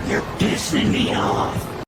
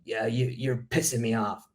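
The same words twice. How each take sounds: First: Slow, low breathy whisper, drawn out. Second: Said in the usual way. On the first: Pretend. Repeating the angry text to the viewers in a slow whisper. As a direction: hiss it slowly under the breath.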